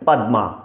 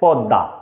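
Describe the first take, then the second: First: The m sound is clearly pronounced separately. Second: The m sound is not separately pronounced. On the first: "সংস্কৃত উচ্চারণ করতে যাই" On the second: "এটা আমরা বাংলা উচ্চারণ করছি"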